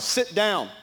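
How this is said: The voice is firm and urgent. He wants me to sit down immediately. "then I know he wants me to sit down now. The tone is different"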